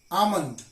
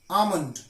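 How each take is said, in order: Both takes have the same delivery.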